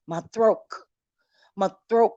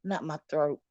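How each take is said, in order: First: "throat" said louder, rising on "throat"; repeated "My throat" pushed louder, tune rising; correcting stress. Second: Said in the usual way. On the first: Shown as a demonstration. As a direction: land on "throat" to fix the mistake. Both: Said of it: "roll it back a little bit".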